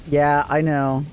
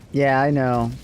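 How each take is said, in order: Both takes have the same delivery.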